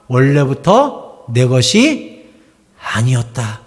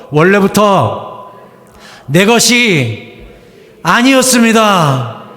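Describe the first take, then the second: First: Slow, low, hushed declaration of faith; slow solemn confession. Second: Each chunk said very slowly with pauses; slow phrase to repeat. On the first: Acted. Pastor voicing Abraham's humble confession. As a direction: say it slowly and humbly, like a vow. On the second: Shown as a demonstration. Pastor leading congregation to repeat slowly. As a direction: lead the congregation word by word. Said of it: "여러분 따라 사실까요?".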